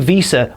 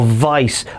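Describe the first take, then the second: First: The name is said in two syllables, like 'Veeza'. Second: The name is said in one syllable, like 'Vice'.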